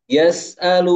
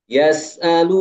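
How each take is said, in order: Both takes have the same delivery.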